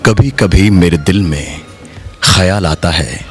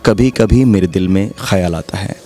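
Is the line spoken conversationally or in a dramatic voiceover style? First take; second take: dramatic voiceover; conversationally. First: It is spoken in a deep, dramatic performing voice. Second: It is spoken in a plain conversational voice. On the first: "how would I say it in a studio is like this" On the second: "in a normal way of talking"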